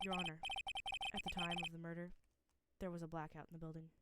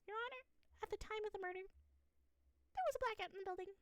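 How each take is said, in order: First: It is said in a normal voice. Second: It is said in a high-pitched, creepy voice.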